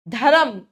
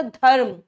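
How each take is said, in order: First: "धर्म" as dha-ram, two syllables; wrong added vowel. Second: "धर्म" with r joined straight to m; correct joined r. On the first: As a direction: add a vowel between r and m in "धर्म". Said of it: "धर्म नहीं होता". ("धर्म" को धरम जैसा बोलकर) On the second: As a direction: say "धर्म" as dharm, no middle vowel. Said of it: "रेफ की मात्रा". ("धर्म", रेफ के साथ जुड़ा उच्चारण) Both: Shown as a demonstration.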